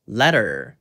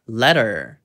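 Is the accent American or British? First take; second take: American; American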